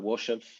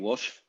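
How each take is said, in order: First: It is said with a small added vowel before the end. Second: It is said without an added vowel before the end.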